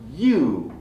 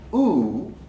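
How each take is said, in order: First: The vowel is said with a y-sound before it. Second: The vowel is said without a y-sound before it. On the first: The speaker calls it right. "The Y is part of the name" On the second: The speaker calls it wrong. "It's not U"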